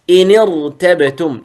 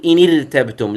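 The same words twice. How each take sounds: First: ارتبتم with a thick, heavy ra; correct heavy r. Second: ارتبتم with a thin, light ra; wrong thin r. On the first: Teacher demonstrating correct إن ارتبتم, heavy ra. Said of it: "لا تقل إن ارتبتم". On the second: Teacher warning students against thin ra in إن ارتبتم. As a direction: say إن ارتبتم with the ra softened, as a mistake. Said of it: "لا تقل". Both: Shown as a demonstration.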